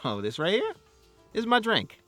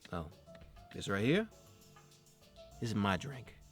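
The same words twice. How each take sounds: First: It sounds warm and friendly. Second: It sounds cocky and hostile. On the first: The listener is on the same side. "If you're talking to a teammate" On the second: The listener is an opponent. "If you're talking to an enemy"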